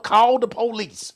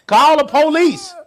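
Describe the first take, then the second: First: Said in the usual way. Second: Loud call for the police. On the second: Acted. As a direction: belt it out, half laughing. Repeated joke about calling police.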